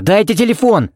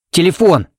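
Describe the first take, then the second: First: Much higher, insistent demand; high urgent call; urgent shout. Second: Higher, louder sudden demand; abrupt shouted word; sudden loud cry. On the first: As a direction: shout for the phone. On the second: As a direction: blurt it out loud. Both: A narrator's reading. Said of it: "крикнул он неожиданно громко".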